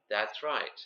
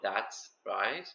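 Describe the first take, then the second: First: The two words run together as one. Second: The two words are split apart. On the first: The speaker calls it right. "It needs to be one thing" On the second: The speaker calls it wrong. "not that's right"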